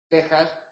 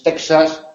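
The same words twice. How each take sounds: First: The x is said as a throaty h sound. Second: The x is said as a ks sound. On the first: The speaker calls it right. "Es Texas" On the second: The speaker calls it wrong. "no es Texas"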